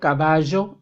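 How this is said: It is said with a South American accent. "en Sudamérica dicen"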